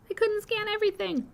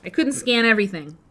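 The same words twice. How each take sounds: First: Squeaky high-pitched repeat. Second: Said in the usual way. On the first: Pretend. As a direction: squeak it out playfully.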